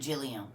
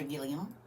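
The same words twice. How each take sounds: First: "Gilliam" with a soft G, like Jilliam. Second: "Gilliam" with a hard G, as in give. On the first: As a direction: say "Gilliam" starting with a J sound. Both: Shown as a demonstration. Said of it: "Is it Gilliam or Gilliam?".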